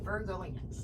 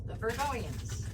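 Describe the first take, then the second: First: Said in the usual way. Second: "The Virgoians" stretched out slowly and pitched higher; mock drawn-out pronunciation. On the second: Shown as a demonstration. To Virgo viewers, mocking how they say it, slow and high. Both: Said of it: "That's how they say it goes".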